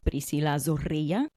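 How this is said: The name is said with Spanish pronunciation.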